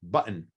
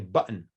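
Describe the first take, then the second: First: The middle t is a glottal stop. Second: The middle t is a glottal stop.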